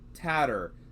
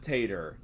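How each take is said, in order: First: The first vowel is short, as in 'cat'. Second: The first vowel is long, as in 'late'. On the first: The speaker calls it right. "Two T's is Tatter" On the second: The speaker calls it wrong. "Not Tater"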